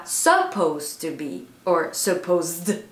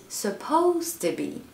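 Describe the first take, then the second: First: "supposed" stressed on the wrong syllable, slow. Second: "supposed to be" with stress on "-posed", T flowing into "to"; correct stress. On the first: Coach showing students the wrong stress. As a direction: misplace the stress in "supposed" on purpose. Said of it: "on dit pas". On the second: Coach giving students the correct stress. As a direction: say "supposed" with the second syllable stressed. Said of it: "on dit". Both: Shown as a demonstration.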